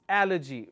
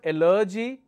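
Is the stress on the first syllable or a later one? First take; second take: first; later. First: The stress is on the first syllable. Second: The stress is not on the first syllable. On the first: The speaker calls it right. "because I'm stressing on the third one" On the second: The speaker calls it wrong. "It's not allergy"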